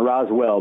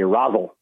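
First: The second syllable is a full 'well'. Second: The second syllable is reduced to 'al'. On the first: This is not how the locals say it. The speaker calls it wrong. "not Roswell" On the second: This is how the locals say it. The speaker calls it right. "They say Rosal"

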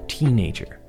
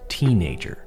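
First: The stress is on the first syllable. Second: The stress is on the first syllable.

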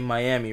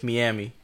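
First: Miami is said with its usual pronunciation. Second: Miami is said to sound like 'Mia and me'. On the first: The speaker calls it right. "Every time I try to say Miami" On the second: The speaker calls it wrong. "I confuse it with Miami. ... Because of Mia and me"

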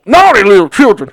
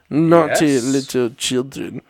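First: A folksy country accent is used. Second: A cold, raspy, growling voice is used. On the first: "I want to make him country like Uncle Jeb" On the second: "in a cold, raspy voice"

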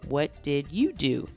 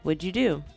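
First: Each word is said fully and separately. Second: The words are run together quickly.

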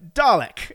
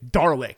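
First: It is said in a British accent. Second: It is said in an American accent, with an R.

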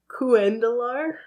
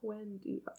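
First: The double L is said as an L sound. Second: The double L is said as a Y sound. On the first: "I'm going to say it once how I would say it" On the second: "double L's become a Y in a lot of languages"

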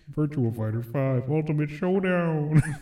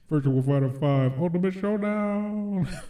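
First: The title is said plainly, without extra emphasis. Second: The title is said with strong, energetic emphasis. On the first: The speaker calls it wrong. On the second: The speaker calls it right.

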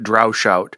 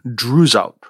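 First: The first syllable sounds like 'drow'. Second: The first syllable sounds like 'droo'. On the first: The speaker calls it wrong. "I think I've been pronouncing it" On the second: The speaker calls it right. "the more correct pronunciation should be"

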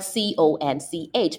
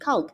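First: The word ends with a 'ch' sound. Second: The word ends with a 'k' sound. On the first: The speaker calls it wrong. "a lot of people pronounce it conch because it's spelled C-O-N-C-H" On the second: The speaker calls it right. "but it's actually conch. ... it's pronounced like K-O-N-K"

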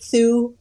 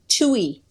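First: It sounds like one syllable without an 'ee'. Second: It sounds like 'two' followed by an 'ee'. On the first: The speaker calls it wrong. "everybody says it Thu" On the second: The speaker calls it right. "like a two and an E"

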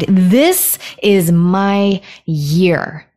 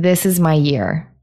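First: It is said forcefully, with lots of energy. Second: It is said flatly, with little energy. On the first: The affirmation is said with real conviction. The speaker calls it right. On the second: The affirmation is said without real belief. The speaker calls it wrong.

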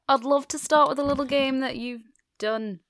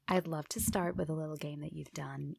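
First: It is said in an unclear put-on accent. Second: It is said in an American accent.

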